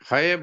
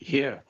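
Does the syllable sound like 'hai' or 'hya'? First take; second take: hai; hya. First: A full 'hai' syllable with an open vowel. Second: A half 'h' joined straight onto 'ya'. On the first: The speaker calls it wrong. "है बोला ना, है नहीं है" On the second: The speaker calls it right. "है आधा है, ये पूरा है"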